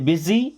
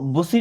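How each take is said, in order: First: It starts with an 'i' vowel and a 'z'. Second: It starts with an 'oo' vowel and an 's'. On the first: The speaker calls it right. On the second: The speaker calls it wrong. "इसको बुसी नहीं पढ़ते"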